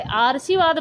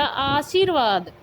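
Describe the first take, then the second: First: आरसीवाद with र spoken before शी, as आ-र-सी-वाद; wrong pronunciation. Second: आशीर्वाद said slowly, र after शी; drawn-out आशीर्वाद, clear र before व; correct pronunciation. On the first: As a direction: misread the word as आरसीवाद. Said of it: "ये आरसीवाद हमारा गलत होता है". (गलत उच्चारण: आरसीवाद, र पहले बोलना) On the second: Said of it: "बल्कि यह कैसे लिखा जाएगा?". (सही उच्चारण: आशीर्वाद, धीरे-धीरे) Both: Shown as a demonstration.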